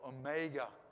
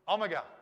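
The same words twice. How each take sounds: First: It is pronounced the American way. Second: It is pronounced the non-American way.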